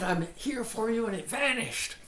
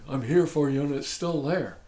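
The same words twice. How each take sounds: First: High-pitched imitation of a thrilled student; mock amazement. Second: Imitated let-down student, louder on the phrase; mock complaint. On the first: Student tells teacher the problem vanished, hammed-up wonder. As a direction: marvel at it in a raised voice. Voices students' delighted report back. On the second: Student tells teacher the problem is still there, mock complaining. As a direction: protest that the method has failed. Voices students' disappointed report back.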